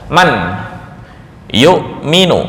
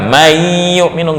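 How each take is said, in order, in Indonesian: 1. Bunyi n diucapkan jelas sebelum y. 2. Bunyi n menyatu dengan y. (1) "Ini ketika sendiri-sendiri sebelum bertemu dengan ya"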